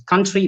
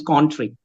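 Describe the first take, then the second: First: Said in the usual way. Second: Spanish-accented "country", first vowel like "con". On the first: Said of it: "My Spanish, uh, trainees". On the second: Shown as a demonstration. Trainer imitating Spanish trainees, accented "country". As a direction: say "country" as "contry", Spanish style. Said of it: "country becomes country".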